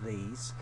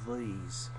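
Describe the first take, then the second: First: The word has the usual unshifted vowel. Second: The word has a shifted, hillbilly-like vowel. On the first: "they tend to shift that from E, like these" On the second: "to almost like an E. So it's like these"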